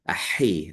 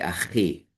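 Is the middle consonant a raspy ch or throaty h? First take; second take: throaty h; raspy ch. First: The middle consonant is a throaty h sound. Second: The middle consonant is a raspy ch sound. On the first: This is the traditional pronunciation. "but I say, as you hear" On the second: This is the common, downgraded everyday form. "but many people say achi"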